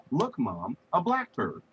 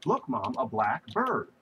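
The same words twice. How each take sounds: First: "blackbird" with the stress on "black", the pitch jumping high. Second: "a black bird" with the stress on "bird". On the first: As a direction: say "blackbird" as one word, first syllable high and strong. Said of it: "that's one word". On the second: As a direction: say "black bird" as two words, "bird" strong. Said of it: "that's two words". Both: Shown as a demonstration.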